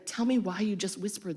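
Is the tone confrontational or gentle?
gentle. It is said softly and warmly. The speaker is asking with care. "in a loving, caring way"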